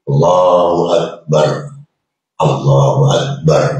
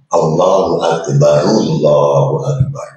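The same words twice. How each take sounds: First: The two phrases are said separately. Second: The two phrases are joined in one breath. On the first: The speaker calls it right. "Betul kan?" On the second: The speaker calls it wrong. "Kalau sambung, tak boleh"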